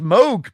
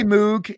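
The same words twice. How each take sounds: First: Moog said as "mohg"; long-O pronunciation. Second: Moog said as "moog", with an OO vowel; everyday pronunciation. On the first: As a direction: say Moog with a long O, rhyming with rogue. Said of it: "it's actually pronounced Moog". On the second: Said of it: "uh, we say Moog". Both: Shown as a demonstration.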